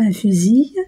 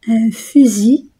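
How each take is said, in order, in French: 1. Le mot finit par une consonne prononcée. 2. Le mot finit par une voyelle ; le L est muet. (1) "et non pas" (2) "I L se prononce I"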